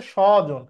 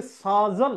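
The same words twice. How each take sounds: First: স্বজন said shɔ-jon with a short rounded first vowel; teacher giving the right form after the wrong one; correct pronunciation. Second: স্বজন said as সাজন, plain sa-jon; teacher voicing the wrong way as a question; wrong pronunciation. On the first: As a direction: say স্বজন as shɔjon, not saajon. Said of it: "এটার উচ্চারণ হচ্ছে স্বজন". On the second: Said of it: "না, এটার উচ্চারণ হচ্ছে স্বজন". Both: Shown as a demonstration.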